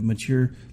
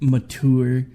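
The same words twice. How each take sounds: First: It is said in the ordinary, everyday way. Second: It is said in a posh, highbrow-sounding way. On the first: The speaker calls it right. "instead of mature" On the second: The speaker calls it wrong. "make it sound like it's some highbrow word"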